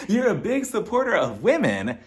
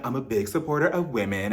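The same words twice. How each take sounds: First: High, swooping disbelief; incredulous echo. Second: Said in the usual way. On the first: Real, not acted. Host questioning Lisa's support of women, incredulous. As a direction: throw the claim back, pitch leaping. Throwing Lisa's claim back at her. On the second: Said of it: "Lisa, she's like".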